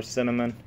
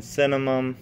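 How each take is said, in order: First: "cinnamon" ending in a clear N; final N in cinnamon. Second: "cinnamon" ending in an M, like "cinnamum"; final M in cinnamon. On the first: Vlogger offering the other form, "cinnamon" with final N. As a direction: finish "cinnamon" on N, lips open. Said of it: "seen it spelled both ways". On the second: Vlogger listing his ingredients, "cinnamon" said with final M. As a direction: close the lips at the end of "cinnamon". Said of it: "I don't know if there's cinnamon". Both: Shown as a demonstration.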